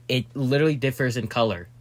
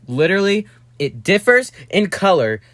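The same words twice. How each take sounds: First: Said in the usual way. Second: "Literally, it differs in color" said higher, with stress on "Literally" and "differs"; emphatic repeat. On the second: Shown as a demonstration. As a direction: hammer "Literally" and "differs" home.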